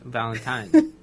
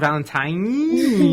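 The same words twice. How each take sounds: First: The N sound is said lightly. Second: The N sound is said more strongly.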